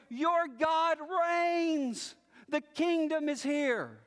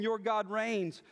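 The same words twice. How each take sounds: First: Slow, lifted proclamation; triumphant yell. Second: Said in the usual way. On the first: Acted. Watchmen shouting back to the city, slow lifted proclamation. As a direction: cry it back from the walls, drawing out the words. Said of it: "they yell". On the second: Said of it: "who says to Zion".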